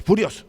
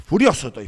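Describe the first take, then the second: First: Higher, louder repeated word furioso; angry repeat. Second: Much louder angry declaration; angry boss. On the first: The boss repeats furioso to the pastor, higher and louder. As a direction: hammer furioso again, higher. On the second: The slamming boss tells the pastor he's furious, loudly. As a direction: let the boss's anger burst out. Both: Retold or imitated.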